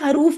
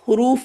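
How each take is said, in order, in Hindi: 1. पहला स्वर छोटा 'a' है। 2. पहला स्वर छोटा 'u' है। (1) "अगर उर्दू में हरूफ बोला जाता होगा" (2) "तो भी आप अब आज से हुरूफ बोलेंगी"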